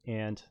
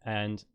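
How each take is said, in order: First: "and" said in an attempted American accent; American pronunciation. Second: Said in the usual way. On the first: Shown as a demonstration. Showing the accent's subtlety on "and" in imitated American. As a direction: say "and" the American way, against your own. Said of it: "you have to think about the subtleties". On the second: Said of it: "See, we say and".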